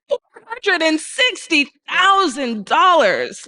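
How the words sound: It sounds amazed and incredulous. The listener should be amazed at the amount. The speaker calls it right. "I wanted people to feel incredulous"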